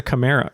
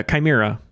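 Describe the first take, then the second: First: Chimera said as kuh-MAIR-uh; mistaken pronunciation. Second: Chimera said as ky-MEER-uh; corrected pronunciation. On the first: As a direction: say Chimera with a short first syllable, "kuh". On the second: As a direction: open Chimera with a long "kai". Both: Real, not acted. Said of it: "Or wait, chi".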